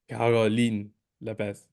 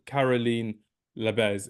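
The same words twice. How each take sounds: First: The surname is said with German sounds. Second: The surname is said with English sounds. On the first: The speaker calls it right. "trying to improve my authentic pronunciations" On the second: The speaker calls it wrong. "so it's not"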